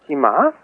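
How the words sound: It sounds like a questioning inquiry.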